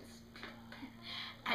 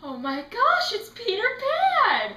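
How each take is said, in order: First: Hushed, voiceless mock whisper; imitated whisper. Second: Loud fangirl cry, rising high; starstruck excitement. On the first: Brother in line for Peter Pan, imitated whisper. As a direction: whisper it under your breath. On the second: Retold or imitated. Fan spotting Peter Pan in line, starstruck excitement. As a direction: gush it, stretching the name high. Retold fan reaction, sister screaming.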